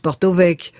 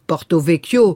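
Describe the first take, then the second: First: The final vowel of the name is dropped. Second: The final vowel of the name is pronounced. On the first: The speaker calls it right. "la fin du mot ne se prononce pas" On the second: The speaker calls it wrong. "vous dites pas Porto Vecchio"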